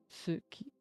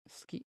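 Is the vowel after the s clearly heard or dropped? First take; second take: heard; dropped. First: The vowel after the s is clearly voiced. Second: The vowel after the s is dropped. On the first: The speaker calls it wrong. "you do not pronounce it as suki" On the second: The speaker calls it right. "if you want to pronounce it properly, it's ski"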